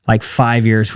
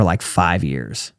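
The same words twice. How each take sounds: First: Said in the usual way. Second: Slow and much softer, drawn out "like, five years"; slow, quiet emphasis. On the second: Real, not acted. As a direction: let "like, five years" sink low and slow. Crashed and burned for years.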